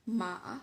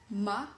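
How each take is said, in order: First: The pitch dips down and then rises. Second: The pitch rises from middle to high. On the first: "falling rising tone" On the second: "rising tone"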